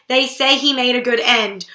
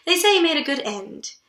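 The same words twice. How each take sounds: First: Sly dig, stress on he; wry, pointed jest; mock joking. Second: Said in the usual way. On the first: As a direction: say it as a joke at the dead man's expense. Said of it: "she's making jokes about her dad dying". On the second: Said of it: "and then she says".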